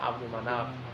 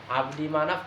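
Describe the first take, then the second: First: The first word ends in a 'u' vowel. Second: The first word ends in an 'i' vowel. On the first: The name is in the nominative case. "kalau dibaca rofa" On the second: The name is in the genitive case. "kalau dibaca zer, jer"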